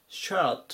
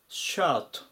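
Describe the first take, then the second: Both takes have the same delivery.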